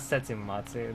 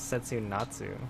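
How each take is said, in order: First: The third syllable starts with an M sound. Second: The third syllable starts with an N sound. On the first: The speaker calls it wrong. "this is not Setsumatsu" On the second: The speaker calls it right. "This is Setsunatsu"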